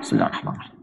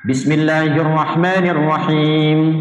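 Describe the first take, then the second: First: The phrase is recited quietly under the breath. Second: The phrase is recited aloud in a full voice. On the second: "baca jahar"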